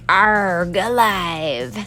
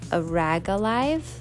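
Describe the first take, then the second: First: The first part is one syllable, "arg". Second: The first part is two syllables, "a rag". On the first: The speaker calls it wrong. "I always pronounced it as like" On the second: The speaker calls it right. "I think it's actually like"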